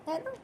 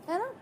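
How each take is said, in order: No difference in how they are said.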